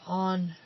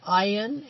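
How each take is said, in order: First: The name is said like 'On'. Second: The name is said with an 'ayn' vowel. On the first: The speaker calls it wrong. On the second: The speaker calls it right.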